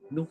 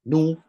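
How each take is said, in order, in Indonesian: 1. Vokal itu dibunyikan dengan lemah dan singkat. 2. Vokal itu dibunyikan dengan penuh dan jelas. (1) "bila satu per tiga bunyi dia nu" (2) "nu bunyi dia penuh satu"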